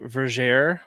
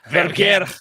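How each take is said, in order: First: The R sounds are plain, not rolled. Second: The R sounds are rolled. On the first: The speaker calls it wrong. "you guys keep saying Verger" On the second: The speaker calls it right. "definitely rolled those R's"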